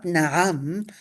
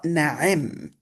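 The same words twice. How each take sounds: First: Na'am said with an open second vowel, nah-AM; na'am pronounced. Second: Na'im said with an i in the second syllable, nah-EEM; na'im pronounced. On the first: Teacher showing the reading to avoid, carefully pronounced na'am. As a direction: voice na'am with a clear a, as in the common word for yes. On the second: Teacher showing the variant reading, carefully pronounced na'im. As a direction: voice na'im with a clear ee sound. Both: Shown as a demonstration. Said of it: "Not na'am, but na'im".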